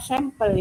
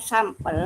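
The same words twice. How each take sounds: First: "sampel" said English-like, SEM-pel; sampel as sempel. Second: "sampel" said with an open ah, SAM-pel. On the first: Participant offering the other reading, sampel as SEM-pel. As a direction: say "sampel" with first vowel eh. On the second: Participant asking how to read it, sampel with ah. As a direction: say "sampel" with first vowel as in father. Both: Shown as a demonstration. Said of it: "kita membacanya sampel apa sampel".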